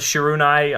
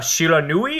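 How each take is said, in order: First: The word ends with the sound 'nai'. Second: The word ends with the sound 'nui'. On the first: The speaker calls it wrong. "I think I pronounced that wrong" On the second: The speaker calls it right. "I think that's how it's pronounced"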